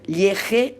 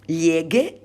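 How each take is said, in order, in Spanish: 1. La consonante es un sonido de h gutural. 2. La consonante es un sonido de g dura. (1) "si yo no pongo la U... no está bien" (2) "si añado la E... tengo que mantener esta pronunciación"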